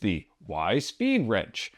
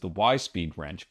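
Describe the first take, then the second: First: The stress falls on the Speed part. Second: The stress falls on the Y part. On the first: The speaker calls it right. "because it's got speed sleeves" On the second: The speaker calls it wrong. "I was putting the emphasis on the wrong syllable"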